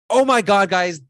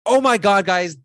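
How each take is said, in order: First: The voice is loud, lively and excited. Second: The same.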